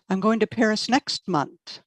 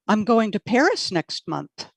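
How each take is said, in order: First: The word "next" carries the stress. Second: The word "Paris" carries the stress. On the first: Not this month. "Not this month" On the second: Not to Rome. "Not to Rome"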